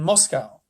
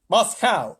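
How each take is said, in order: First: Moscow is said with a non-American pronunciation. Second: Moscow is said with an American pronunciation.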